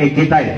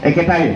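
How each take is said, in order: The two takes are said the same way.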